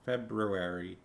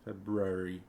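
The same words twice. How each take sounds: No difference in how they are said.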